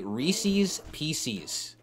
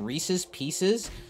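First: It uses the local Ohio dialect pronunciation. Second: It uses the usual general American pronunciation. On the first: "they legitimately say Reese's Pieces" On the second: "Instead of saying Reese's Pieces"

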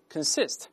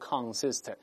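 First: The first syllable has a weak, reduced vowel. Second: The first syllable has a full, clear vowel. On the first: The speaker calls it right. "在轻读时发con，是consist" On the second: The speaker calls it wrong. "不要读consist"

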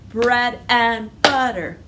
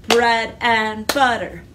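Both takes have the same delivery.

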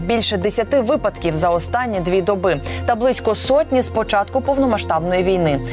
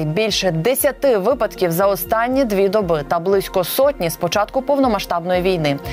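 Both takes have the same delivery.

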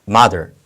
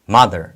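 Both takes have the same delivery.

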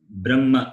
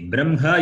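First: A doubled m is heard with no h. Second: The m sound comes before the h. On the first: "the Vedic chanters, they pronounce it as Brahma. That B-R-A-M-M-A" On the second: "You can pronounce it as B-R-A-M-H-A. Brahma you can pronounce"

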